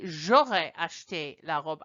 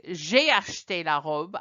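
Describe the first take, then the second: First: J'aurais lifted and leaned on as the key word; teacher showing the right form, j'aurais stressed. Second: Said in the usual way. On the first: Shown as a demonstration. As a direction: point out j'aurais so the student hears it. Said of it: "instead of saying ... I say". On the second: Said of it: "instead of saying".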